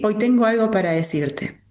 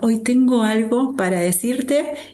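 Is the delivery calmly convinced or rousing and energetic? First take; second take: convinced; rousing. First: It is said in a firm, convinced tone. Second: It is said in a rousing, energetic tone. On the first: The speaker is sure of the message. "bien convencido" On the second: The speaker is firing up a team before a game. "como si tuvieras que emocionar a tu equipo"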